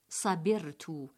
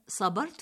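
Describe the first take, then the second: First: The B is followed by an i vowel. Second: The B is followed by an a vowel. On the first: The speaker calls it wrong. "بكسر الباء" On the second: The speaker calls it right. "بالفتح"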